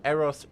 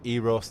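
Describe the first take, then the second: First: Eros starting "EH", as in "AIR-oss"; EH-ross for Eros; short-E Eros. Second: Eros starting "EE", as in "EE-ross"; long-E Eros. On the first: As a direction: say Eros with a short, open first E. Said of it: "Zafar said Eros". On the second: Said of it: "captain said Eros and Zafar said Eros". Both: Shown as a demonstration.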